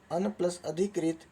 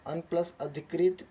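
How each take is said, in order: Both takes have the same delivery.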